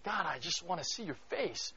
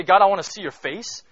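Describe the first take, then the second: First: Soft, intimate plea to God; quiet longing prayer; hushed prayer. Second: Loud, raised plea to God; loud, higher fervent prayer; bold cry. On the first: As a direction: breathe it like a whispered prayer. His own earnest prayer recalled. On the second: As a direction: throw it out as a daring cry. Preacher dramatizes the bold prayer. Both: Retold or imitated.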